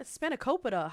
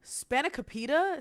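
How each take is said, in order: First: "Spanakopita." said her own way with a plain falling tone; "Spanakopita." as she thinks it should sound, settled and falling. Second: "Spanakopita?" copying the clip's odd pronunciation, slower and rising; "Spanakopita?" echoed back the way he said it, as a puzzled question. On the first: Shown as a demonstration. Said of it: "Is it spanakopita?". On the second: Retold or imitated. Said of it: "Why he say it like that?".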